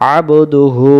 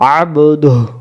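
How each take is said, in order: First: The phrase ends with a lengthened u vowel. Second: The phrase ends on a bare h sound. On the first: The reciter continues without stopping. "আর যদি এটা না থাকতো আব দুহু, তখন আবার টান দেওয়া লাগতো।" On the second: The reciter stops at this word. "হু পড়া লাগতো না"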